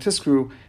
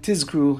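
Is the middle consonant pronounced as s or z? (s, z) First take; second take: s; z. First: The middle consonant sounds like an s. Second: The middle consonant is a clear z sound. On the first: The speaker calls it wrong. "in order it doesn't sound like" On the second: The speaker calls it right. "you say the Zion clearly"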